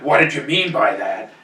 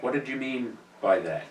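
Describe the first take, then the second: First: It is asked in a challenging, confrontational tone. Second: It is asked in a calm, curious tone.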